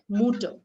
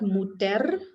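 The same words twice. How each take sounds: First: The word ends with a soft vowel sound. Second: The word ends with a clear 'er' sound. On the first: The speaker calls it right. "this pronunciation is going to be O at the end" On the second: The speaker calls it wrong. "not mutter"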